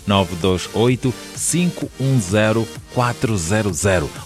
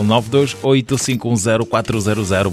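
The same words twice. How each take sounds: First: The number is said more slowly. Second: The number is said at normal speed.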